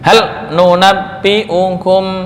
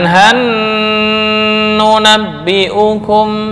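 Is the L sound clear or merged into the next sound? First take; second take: clear; merged. First: The L is pronounced clearly before the N. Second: The L merges into a doubled N sound. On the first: This follows the Hafs reading. The speaker calls it right. "Idhar jelas" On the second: This is not the Hafs reading. The speaker calls it wrong.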